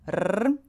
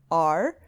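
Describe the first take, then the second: First: The R is said with a roll. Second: The R is said without a roll.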